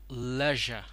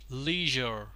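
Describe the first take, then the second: First: It is said with a British pronunciation. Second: It is said with an American pronunciation.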